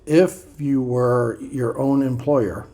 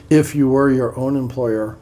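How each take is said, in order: First: Drawn-out, deliberate first read; a slow, weighty read of the line. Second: Said in the usual way. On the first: Shown as a demonstration. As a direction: savour each word slowly.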